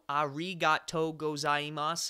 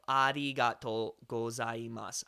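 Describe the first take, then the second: First: The R is a hard, American-style R. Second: The R is a light tap between D and L. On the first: "A very English pronunciation" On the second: "closer to a, a D, an R, and an L sound bled together"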